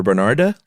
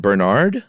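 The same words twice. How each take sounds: First: "Bernarda" with an added "ah" at the end; final vowel sounded. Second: "Bernard" ending on the D, questioning rise; final E silent. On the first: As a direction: say "Bernarda" in three syllables, rising as a question. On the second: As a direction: say "Bernard" with no vowel after the D. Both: Shown as a demonstration. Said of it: "you don't pronounce E".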